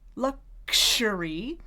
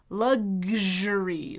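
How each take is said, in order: First: The middle sounds are a voiceless k and sh. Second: The middle sounds are a voiced g and zh. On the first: "k, sh" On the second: "let's voice it. Then I'm going to have g and zh"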